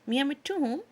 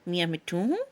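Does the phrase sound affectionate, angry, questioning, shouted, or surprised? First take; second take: affectionate; questioning. First: It is said in a warm, loving tone. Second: It is said in a questioning tone. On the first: "बड़े प्यार भरे लहजे में" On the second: "इस मर्तबा लहजा सवालिया होता"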